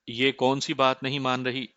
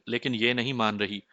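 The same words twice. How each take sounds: First: Mild questioning lift on بات; puzzled query stressing بات. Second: Said in the usual way. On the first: A narrator's reading. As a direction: ask it, leaning lightly on بات. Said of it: "استفہامیہ لہجے میں پوچھا". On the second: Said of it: "اکتاہٹ بھرے انداز میں کہا".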